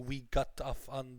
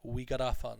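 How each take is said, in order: First: Each word is separate, with a clear T sound. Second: The words run together; the T sounds like D. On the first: The speaker calls it wrong. "we don't say" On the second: The speaker calls it right. "this compression. So the T's change to D's"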